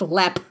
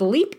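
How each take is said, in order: First: The vowel sounds like the one in step. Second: The vowel sounds like the one in deep. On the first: The speaker calls it right. "It is pronounced Lep" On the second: The speaker calls it wrong. "It is not pronounced Leap"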